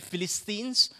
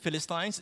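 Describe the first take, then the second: First: It is pronounced the American way. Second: It is pronounced the British way. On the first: "If you are American, you can say" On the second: "That is a British pronunciation"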